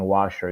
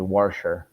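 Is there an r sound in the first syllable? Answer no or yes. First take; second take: no; yes. First: The first syllable is said without an r sound. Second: The first syllable is said with an r sound. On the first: "instead of saying washer" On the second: "a lot of the Baltimore accent"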